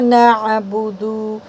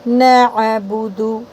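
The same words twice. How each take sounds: First: The 'd' sound is stretched out long. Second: The 'd' sound is short and not stretched. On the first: The speaker calls it wrong. "अगर दाल खींचोगे ना नअबुदु तो मीनिंग बदल जाएंगे" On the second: The speaker calls it right. "देखिए दाल को खींचना नहीं है"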